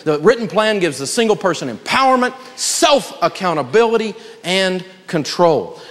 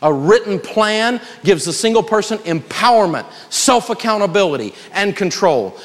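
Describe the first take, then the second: First: Each phrase slowed, "and control" drawn out very slowly; slow, weighty repeat. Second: Said in the usual way. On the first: Shown as a demonstration. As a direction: lay it down word by word so they write it. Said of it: "circle that one right there". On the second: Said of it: "That is worth you attending tonight".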